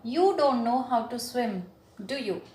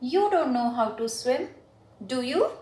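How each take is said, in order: First: The voice falls at the end of the tag. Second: The voice rises at the end of the tag.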